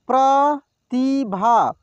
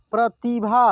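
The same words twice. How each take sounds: First: Pratibha drawn out slowly, syllable by syllable; slow sounding out. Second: Said in the usual way. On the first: Shown as a demonstration. Teacher slowly sounds out Pratibha for students. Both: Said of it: "एक एक मात्रा को अलग अलग करके".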